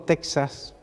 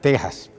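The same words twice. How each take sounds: First: It is pronounced the American English way. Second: It is pronounced the standard Spanish way. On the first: "empleando como lo pronuncian los americanos" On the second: "según el diccionario de la Real Academia"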